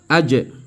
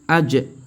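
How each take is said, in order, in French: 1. La consonne finale est relâchée avec un rebond d'écho. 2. La consonne finale est relâchée avec un rebond d'écho.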